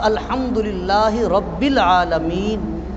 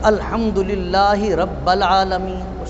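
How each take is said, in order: First: The word 'rabb' is followed by an 'i' vowel. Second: The word 'rabb' is followed by an 'a' vowel. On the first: The speaker calls it right. "ये ठीक है" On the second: The speaker calls it wrong. "ये भी गलत है"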